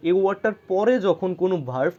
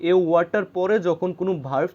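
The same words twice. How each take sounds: The two takes are said the same way.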